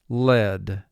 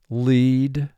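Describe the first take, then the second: First: The vowel is a short E sound. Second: The vowel is a long E sound. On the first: The metal. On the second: To guide the way.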